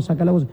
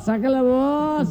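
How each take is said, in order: First: Said in the usual way. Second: Put-on high, slow drunken wail. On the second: Drunk mocking the men who won't dance, slow wail. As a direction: stretch it out like an indignant drunk. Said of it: "Y un borracho dice".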